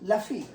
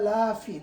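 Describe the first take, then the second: First: The first vowel is short and clipped. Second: The first vowel is drawn out long. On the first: Surely in loss. The speaker calls it right. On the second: Not in loss. The speaker calls it wrong.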